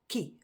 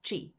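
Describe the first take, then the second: First: The syllable starts with a k sound. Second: The syllable starts with a ch sound. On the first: The speaker calls it right. "it is pronounced as ki" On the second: The speaker calls it wrong. "and not chi"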